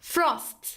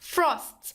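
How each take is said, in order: Both takes have the same delivery.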